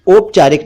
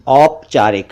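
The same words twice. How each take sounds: First: "औपचारिक" mispronounced "opchaarik", closed o; wrong o vowel. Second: "औपचारिक" with open au; correct au vowel. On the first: Teacher rejects mistaken औपचारिक, o sound. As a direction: start "औपचारिक" with "oh". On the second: Teacher corrects to औपचारिक, au sound. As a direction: say "औपचारिक" as "awp-chaarik". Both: Shown as a demonstration. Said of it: "औपचारिक नहीं".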